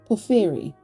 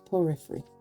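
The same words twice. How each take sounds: First: The name is said the second, different way. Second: The name is said the first way. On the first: The speaker calls it right. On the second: The speaker calls it wrong.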